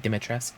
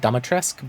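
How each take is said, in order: First: The first syllable sounds like 'dih'. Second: The first syllable sounds like 'doh'. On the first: This is how the actual language says the name. The speaker calls it right. "it's supposed to be" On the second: This is how the game says the name. The speaker calls it wrong. "the way they pronounce it in the game is"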